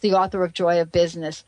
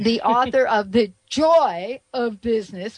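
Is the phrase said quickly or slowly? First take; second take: quickly; slowly. First: The phrase is rushed through quickly. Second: The phrase is said slowly and deliberately. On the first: The speaker calls it wrong. "I almost blew by that" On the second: The speaker calls it right. "I got to say that again"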